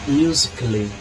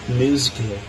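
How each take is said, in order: No difference in how they are said.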